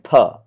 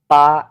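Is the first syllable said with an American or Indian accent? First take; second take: American; Indian. First: The first syllable is said in an American accent. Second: The first syllable is said in an Indian accent. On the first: "if you are someone from America, you will always say per" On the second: "An Indian guy would say partially"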